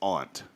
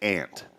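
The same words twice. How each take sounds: First: The vowel is broad, like ahnt, not ant. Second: The vowel sounds like the insect word ant. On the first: This is how people say it in the other place. "there it's aunt" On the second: This is how the speaker says it at home. "they told me they said that's an insect"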